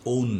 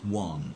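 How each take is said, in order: First: The word sounds like 'own'. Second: The word sounds like 'one'. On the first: The speaker calls it wrong. "ওন না" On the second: The speaker calls it right.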